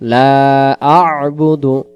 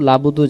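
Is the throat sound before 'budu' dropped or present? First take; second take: present; dropped. First: A throaty catch sounds before 'budu'. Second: It runs straight into 'labudu' with no catch. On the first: The speaker calls it right. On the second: The speaker calls it wrong.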